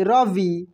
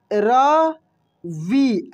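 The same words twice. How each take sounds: First: Said in the usual way. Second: रवि stretched very slowly; slow teacher's demo of रवि; drawn-out demo. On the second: Shown as a demonstration. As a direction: pull रवि out syllable by syllable for the class. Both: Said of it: "ऐसे रवि".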